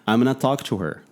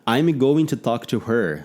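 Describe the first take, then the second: First: 'Going to' is reduced to 'gonna'. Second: 'Going to' is said in full. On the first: It is how people talk day to day. The speaker calls it right. "mas no dia a dia as pessoas falam" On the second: It is said the way it is read. The speaker calls it wrong. "A gente fala assim, porque lê dessa maneira"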